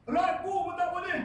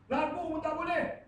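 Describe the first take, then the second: First: Preacher stressing "Ragu" with slow weight; emphatic repeat. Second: Said in the usual way. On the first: Shown as a demonstration. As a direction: hammer home "Ragu pun tak boleh" slowly.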